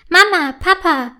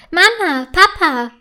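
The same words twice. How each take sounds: First: Calling her parents, impatient and raised. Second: Calling out high with delight; joyful call. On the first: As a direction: hurry them along, a bit whiny. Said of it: "fragt sie ungeduldig". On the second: Fine finds her kite and calls her parents, joyful. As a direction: shout for the parents, overjoyed. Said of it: "ruft sie voller Freude". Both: A narrator's reading.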